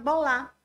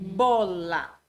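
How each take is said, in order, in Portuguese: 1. A tônica cai na segunda sílaba. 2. A tônica cai na primeira sílaba. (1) "Ela coloca uma acentuação diferente" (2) "em vez de"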